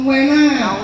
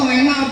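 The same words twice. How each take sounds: First: The word is stretched out and drawn long. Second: The word is said at normal length. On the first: It is very, very nice. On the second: It is nice.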